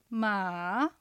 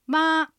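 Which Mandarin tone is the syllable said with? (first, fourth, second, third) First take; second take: third; first. First: The syllable has a low, dipping pitch. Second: The syllable has a high, level pitch. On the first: "三声" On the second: "一声"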